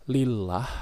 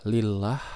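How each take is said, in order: No difference in how they are said.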